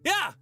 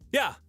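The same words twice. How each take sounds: First: It is screamed at full volume. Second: It is energetic but not screamed. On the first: "with a bit more energy" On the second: "energetic yeses without the screaming"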